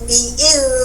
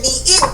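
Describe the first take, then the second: First: The final consonant flows with continuous airflow. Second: The final consonant stops the airflow abruptly. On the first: The speaker calls it right. "biil harus mengalir" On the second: The speaker calls it wrong. "berarti rohwa tidak tertunaikan, salah"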